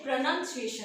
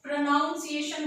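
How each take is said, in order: First: "प्रोनाउंसिएशन" as pro-nun-ciation; "प्रोनाउंसिएशन" with a short u, not ow; correct pronunciation. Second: "प्रोनाउंसिएशन" as pro-noun-ciation; "प्रोनाउंसिएशन" with an ow in the middle; common mispronunciation. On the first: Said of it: "क्या है". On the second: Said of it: "बहुत सारे लोग जो है क्या बोलते हैं". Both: Shown as a demonstration.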